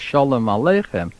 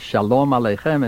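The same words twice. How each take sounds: First: It has Yiddish stress, near the word starts. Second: It has Hebrew stress, near the word ends.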